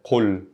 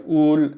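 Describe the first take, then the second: First: "qul" with a deep q at the start; original qul. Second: "ul" drawn out with no q; colloquial ul. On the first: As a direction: begin "qul" far back in the throat. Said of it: "ul is originally, like, qul". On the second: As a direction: open "ul" on a glottal catch instead of q. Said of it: "you would say, like, ul". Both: Shown as a demonstration.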